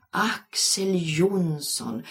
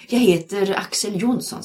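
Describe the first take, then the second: First: Slow, dreamy drawn-out name. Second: Said in the usual way. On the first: A narrator's reading. Linda dreaming aloud over the teacher's name, dreamy. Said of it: "sa Linda drömmande". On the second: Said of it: "sa mannen".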